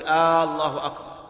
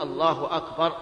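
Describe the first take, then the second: First: The opening vowel of Allah is drawn out. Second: No vowel is drawn out beyond normal length. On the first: The speaker calls it wrong. "يمد الهمزة فيقول الله أكبر" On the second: The speaker calls it right. "لا بد أن يقول الله أكبر"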